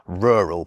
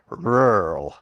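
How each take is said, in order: First: The word has two clear syllables. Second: The word is squeezed into one syllable. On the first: "In Britain we just say rural" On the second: "some American accents try to make it into a one-syllable word"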